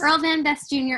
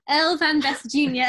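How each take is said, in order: First: It is said in the speaker's plain accent. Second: It is said in a put-on British accent.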